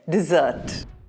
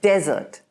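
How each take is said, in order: First: The stress is on the second syllable. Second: The stress is on the first syllable. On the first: It names a sweet pudding or cake. "you're emphasizing on the double S" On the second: It names a dry, sandy region. "the emphasis is on de"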